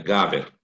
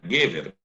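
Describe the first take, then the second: First: The first vowel is pronounced 'a'. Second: The first vowel is pronounced 'e'. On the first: The word stands at the end of a verse. "tu vai mudar essa primeira sílaba do E para A. Você fica Gaver" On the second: This is the ordinary form of the word. "a palavra é Gever"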